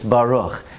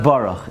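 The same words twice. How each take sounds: First: The word is said carefully and fully. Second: The word is rushed and slurred. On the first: The speaker calls it right. "it's Baruch" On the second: The speaker calls it wrong. "It's not Baruch"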